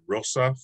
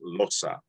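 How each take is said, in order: First: The word begins with an R sound. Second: The word begins with an L sound. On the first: "interchange R and L" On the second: "can also be said as losa"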